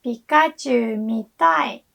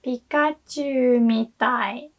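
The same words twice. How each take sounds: First: "Pikachu mitai" falling on mitai; want to intonation. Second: "Pikachu mitai" rising on Pikachu, slow; is like intonation. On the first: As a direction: drop the tune on "mitai". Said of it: "Want to watch Pikachu". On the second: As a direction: lift "Pikachu", keep "mitai" flat. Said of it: "is like Pikachu". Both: Shown as a demonstration.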